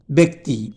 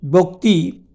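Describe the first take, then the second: First: ব্যক্তি said as "bekti", with an e; spoken pronunciation. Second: বক্তি said as "bokti", with an o; spelling pronunciation. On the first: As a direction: say ব্যক্তি with e in the first syllable. (প্রচলিত "বেক্তি" উচ্চারণ) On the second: (বানান-অনুযায়ী "বোক্তি" উচ্চারণ) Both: Shown as a demonstration. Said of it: "উচ্চারণে".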